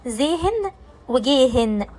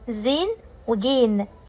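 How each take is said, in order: First: The middle h is clearly pronounced. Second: The middle h is silent. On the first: The speaker calls it wrong. "من الاخطاء الشائعة ان الناس بتنطقها زيهن وجيهن" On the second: The speaker calls it right. "هنا الهاء لا تنطق"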